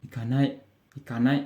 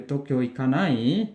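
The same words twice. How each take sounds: First: "ikanai" kept down as a statement; short, settled "ikanai"; falling answer tune. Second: "ikanai" swept up at the end; casual question tune on "ikanai"; rising question. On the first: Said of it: "intonasinya menurun". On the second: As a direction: lift "ikanai" as an invitation. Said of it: "intonasinya naik". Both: Shown as a demonstration.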